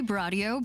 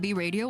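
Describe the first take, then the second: First: The name starts with a blended 'Bra' sound. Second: The name starts with a separate letter 'Bee'. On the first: This is the band's intended name. "it's supposed to be Bradio" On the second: This is how most North American fans say it. "the majority North American uh, like fan base seems to call them B Radio"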